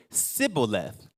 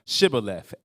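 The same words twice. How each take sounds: First: "Sibboleth" said with a plain s where sh belongs; "Sibboleth" with s, the Ephraimite slip. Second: "Shibboleth" said with a clear sh sound at the start; "Shibboleth" pronounced with sh, the Gileadite way. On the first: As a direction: swap the sh in "Sibboleth" for a hissed s. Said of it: "it says they said". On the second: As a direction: give "Shibboleth" its proper opening sh. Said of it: "the way they pronounced it". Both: Shown as a demonstration.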